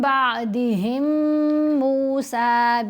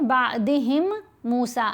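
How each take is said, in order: First: The two words are read joined together. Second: The two words are read separately, unlinked. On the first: The speaker calls it right. "यहाँ हमने मिलाकर पढ़ना है" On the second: The speaker calls it wrong. "अलहदा अलहदा तो फिर ये गलती है"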